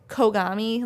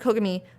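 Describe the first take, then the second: First: The first vowel is drawn out long. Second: The first vowel is said short. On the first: "like how we say it, it would have a U in it" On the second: "it's like Kogami"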